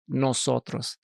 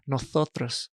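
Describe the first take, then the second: First: The s is said as a plain s. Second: The s is said as a th sound. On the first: "how I'll pronounce my S ... I pronounce it" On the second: "In Spain ... They'll say with a, like a T H"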